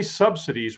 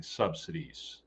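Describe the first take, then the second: First: Said in the usual way. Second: Subsidies spat out slowly and with contempt; spitting subsidies. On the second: Shown as a demonstration. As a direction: spit the word subsidies, slowly. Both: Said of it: "we should be spitting subsidies".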